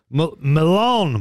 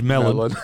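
First: The name is said with a French pronunciation. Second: The name is said with an English pronunciation. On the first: The speaker calls it right. "French accent" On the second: The speaker calls it wrong. "I read it as melon"

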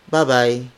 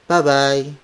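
The two takes are said the same way.

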